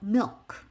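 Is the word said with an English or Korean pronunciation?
English. It is said as one English syllable. "이거는 영어식으로 읽은 거고"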